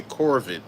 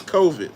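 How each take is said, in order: First: "Corvid" with an R put into the first syllable; Southern-accented "Corvid", first syllable rhyming with "core"; Southern mispronunciation. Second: Said in the usual way. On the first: Shown as a demonstration. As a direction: say "Corvid" as a Southern slip, COR-vid. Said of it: "It be my South Southern accent kicking in". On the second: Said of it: "I used to say Corvid".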